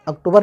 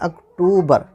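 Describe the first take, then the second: First: The middle vowel is short and clipped. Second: The middle vowel is drawn out long. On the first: The speaker calls it wrong. "अक्टूबर नहीं होता है" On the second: The speaker calls it right. "टू थोड़ा खींचा जा रहा है"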